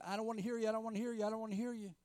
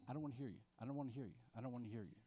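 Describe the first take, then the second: First: High, petulant chant of refusal, said over and over; a child plugging his ears against a voice; stubborn refusal. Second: Soft, sulky murmur of refusal, said over and over; quiet refusal. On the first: Jonah refusing to hear God, high petulant chant. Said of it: "putting his fingers in his ears and saying". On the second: Believers closing their Bibles against God, soft sulky refusal. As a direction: mutter it to yourself, shutting the Bible. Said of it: "essentially we're saying". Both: Retold or imitated.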